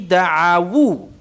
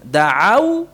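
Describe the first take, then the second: First: The word ends with an added 'wu' syllable. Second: The word ends in a closed 'au' diphthong. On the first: The word joins the next word. "da'au menjadi da'awu" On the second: The word stands alone. "da'au menjadi da'awu"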